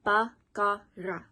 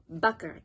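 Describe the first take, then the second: First: "Bakara" slowly split into ba, ka, ra; syllable by syllable. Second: Said in the usual way. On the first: Shown as a demonstration. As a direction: sound out "Bakara" in three separate beats. Teacher breaks the word into syllables.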